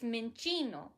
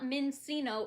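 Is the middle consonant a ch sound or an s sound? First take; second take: ch sound; s sound. First: The middle consonant is a ch sound. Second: The middle consonant is an s sound. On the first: The speaker calls it right. "the Italian way of, protou- of pronouncing it like you would a cappuccino" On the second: The speaker calls it wrong. "it's not mincino"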